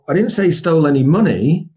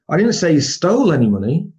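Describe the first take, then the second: First: The stress is on the word money. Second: The stress is on the word stole.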